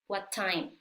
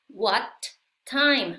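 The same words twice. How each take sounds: First: The words are joined with one t sound. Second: The words are separated by a short break.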